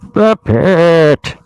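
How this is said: It is said in a deep Bane impression.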